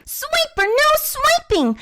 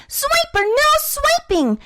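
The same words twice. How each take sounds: Both takes have the same delivery.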